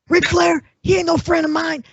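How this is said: It is said in a put-on imitating voice.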